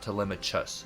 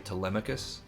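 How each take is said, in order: First: The middle consonant is a ch sound. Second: The middle consonant is a hard k sound. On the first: The speaker calls it wrong. "It's not Telemachus, just so you know that it's not a ch for the ch" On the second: The speaker calls it right. "That's how we would pronounce this"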